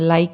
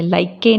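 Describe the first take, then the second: First: The final e is not sounded. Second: The final e is sounded as a vowel. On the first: The speaker calls it right. "ई silent" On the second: The speaker calls it wrong. "नहीं बोलते हैं"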